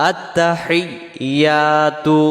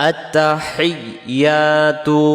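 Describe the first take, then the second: Both takes have the same delivery.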